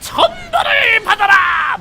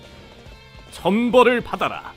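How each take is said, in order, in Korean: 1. 목소리가 날카롭고 쥐어짜는 듯 찢어진다. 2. 목소리가 차분하고 온화하며 절제되어 있다. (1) "특유의 찢어지는 목소리 있잖아요" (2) "되게 얌전했어요"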